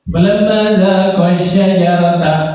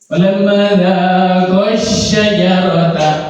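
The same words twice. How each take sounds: First: The vowel at the end of dhaqa is short. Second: The vowel at the end of dhaqa is long. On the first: Only one person tasted the fruit. The speaker calls it wrong. "kalau bacanya lurus" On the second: Two people tasted the fruit. The speaker calls it right. "Pakai alif kan?"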